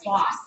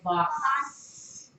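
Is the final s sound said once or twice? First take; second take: once; twice. First: The final s sound is said once. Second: The final s sound is said twice. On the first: The speaker calls it right. "It's our boss" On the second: The speaker calls it wrong. "We don't say boss"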